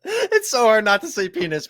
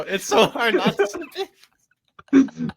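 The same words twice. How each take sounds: First: Said in the usual way. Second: Slow, stretched out while laughing; laughing repeat. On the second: Real, not acted. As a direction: say it again and crack up halfway. Repeating it, cracking up.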